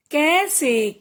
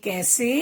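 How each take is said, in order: First: "कैसे" split as कै-से; teacher's drawn-out "कैसे"; sounding out. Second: Said in the usual way. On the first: Shown as a demonstration. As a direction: stretch both syllables of "कैसे". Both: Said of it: "कुछ ए के शब्द भी हैं".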